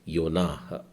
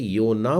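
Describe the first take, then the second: First: The name ends with a light h sound. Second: The name ends plainly on the vowel. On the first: This is the Hebrew way of saying it. "ह भी हल्का सा बोलना है" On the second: This is the usual Hindi way of saying it. "हम लोग हिंदी में इसे योना बोलते हैं"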